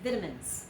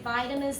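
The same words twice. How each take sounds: First: It is said with a British pronunciation. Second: It is said with an American pronunciation. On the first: "In Great Britain, they say vitamins" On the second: "they don't say vitamins"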